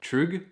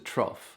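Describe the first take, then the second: First: The name ends with a G sound. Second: The name ends with an F sound. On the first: The speaker calls it wrong. "It's not Trug" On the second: The speaker calls it right. "I think it's the Trough"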